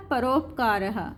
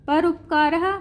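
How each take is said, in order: First: परोपकारः said slowly as one word, falling; joined word, slow. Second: परोपकारः said as parts, rising; teacher splits परोपकारः into its pieces. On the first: Teacher gives the joined form परोपकारः to pupils. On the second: Teacher shows the split word परोपकारः to pupils. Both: Shown as a demonstration.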